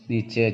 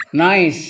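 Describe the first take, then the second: First: "nice" sounded out as nee-cheh; read as spelled. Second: "nice" with an eye vowel, one syllable; correct English reading. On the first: Teacher spelling out the word for class, "nice" as nee-cheh. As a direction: say "nice" as written, nee-cheh, two syllables. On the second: Teacher giving the class the English word, "nice" as nyce. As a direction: say "nice" as nyce, silent final e. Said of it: "nice tulisannya nih, nice". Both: Shown as a demonstration.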